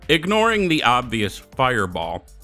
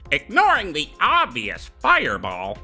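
First: It is read in the speaker's ordinary voice. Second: It is read in a put-on gnome character voice.

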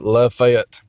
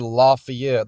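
First: The ending rhymes with 'Fett'. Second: The ending does not rhyme with 'Fett'. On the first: This is how it is said in Georgia. The speaker calls it right. "like Boba Fett, we pronounce it Lafayette" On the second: This is how it is said outside Georgia. The speaker calls it wrong. "notice I didn't say Lafayette. That's not how we pronounce it in Georgia"

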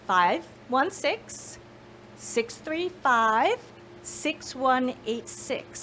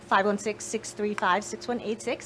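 First: The number is said slowly. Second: The number is said fast.

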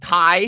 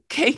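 First: The name rhymes with 'eye'. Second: The name rhymes with 'say'. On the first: The speaker calls it wrong. "your name is Kai? ... how the fuck you read it as Kai?" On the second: The speaker calls it right. "It's pronounced the same as the first letter. It's just K"

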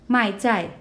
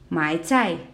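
First: The first syllable falls sharply from high. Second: The first syllable dips low then rises. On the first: I sell food. "the second I sell food" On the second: I buy food. "the first one means I buy food"

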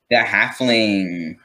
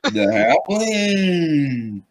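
First: It is said flatly, without drama. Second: It is said dramatically, with high energy.

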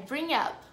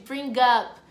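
First: No hard g sound is heard before 'up'. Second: A hard g sound is heard before 'up'. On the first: The speaker calls it right. "Esse G você pode quase que considerar como mudo" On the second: The speaker calls it wrong. "você tem vontade de fazer um sonzinho de bring up, gup"

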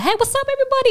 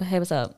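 First: It is said loudly with big, confident energy. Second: It is said in a plain, relaxed, casual way.

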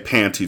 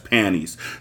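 First: The middle t sound is clearly pronounced. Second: The middle t sound is dropped entirely. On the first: The speaker calls it wrong. "We don't say panties around here" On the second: The speaker calls it right. "We say panties. P-A-N-N-I-E-S"

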